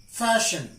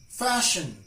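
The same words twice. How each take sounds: Both takes have the same delivery.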